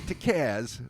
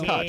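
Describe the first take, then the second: First: The name ends with a z sound. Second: The name ends with a ch sound. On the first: The speaker calls it wrong. "It's not Tkaz, as is often mispronounced" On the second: The speaker calls it right. "It's Tkach"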